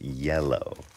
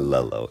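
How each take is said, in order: First: The word begins with a Y sound. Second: The word begins with an L sound. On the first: The speaker calls it right. "It's yellow" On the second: The speaker calls it wrong. "It's not lellow"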